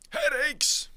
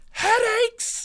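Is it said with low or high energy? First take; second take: low; high. First: It is said with less energy. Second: It is said with more energy, all out.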